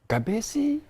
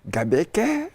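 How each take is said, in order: First: The middle consonant is a soft s sound. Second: The middle consonant is a hard k sound. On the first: The speaker calls it wrong. "I was saying Gabesi all the time" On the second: The speaker calls it right. "Gabeke makes it sound so Greek"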